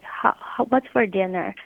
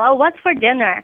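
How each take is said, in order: First: It is said in a soft, quiet voice. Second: It is said in a normal, loud voice.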